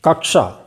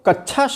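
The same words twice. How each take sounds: First: A light k comes before a retroflex sh. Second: The cluster lacks a light k before sh. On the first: The speaker calls it right. "हल्की सी क की आवाज आनी चाहिए" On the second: The speaker calls it wrong. "कई लोग तो कक्षा शब्द का प्रयोग कर देते हैं, नहीं"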